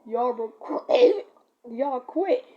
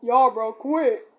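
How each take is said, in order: First: Drawn-out cracking plea; redoing the cracked plea, slower. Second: Put-on teenage voice crack, loud. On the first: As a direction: stretch it slow and let it crack. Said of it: "No, but, like, it was like". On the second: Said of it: "my voice cracked and it sounds like this". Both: Shown as a demonstration.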